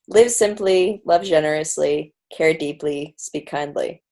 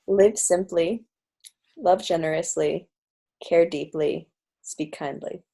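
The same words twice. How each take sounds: First: It is said at a normal speed. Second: It is said slowly and deliberately.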